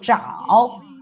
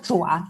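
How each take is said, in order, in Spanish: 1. La sílaba termina en un sonido 'ow'. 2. La sílaba termina en un 'ah' abierto. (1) "Cuando se refiere a las manos humanas, decimos zhao" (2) "las patas de los pájaros, en chino decimos chua"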